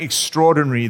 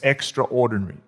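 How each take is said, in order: First: The word is run together as one reduced word. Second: The word is split into 'extra' and 'ordinary'. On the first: The prayers are impressive, eloquent and poetic. "So I'm not saying extraordinary, that the most articulate, Shakespearean-like, beautiful, poetic prayers" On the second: The prayers go beyond the usual kind. "I'm talking about a kind of prayer which is extraordinary. It's not the usual kinds of prayers"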